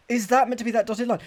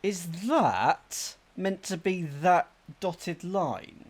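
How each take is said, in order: First: Fast, raised, higher-pitched repeat; quick, louder question. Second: Slow, drawn-out question; slow puzzling. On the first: Player re-asks about the map after coughing, quick and louder. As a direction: fire the question out fast and loud. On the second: Player peers at a map clue, slowly puzzling. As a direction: ask it slowly, working it out. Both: Real, not acted.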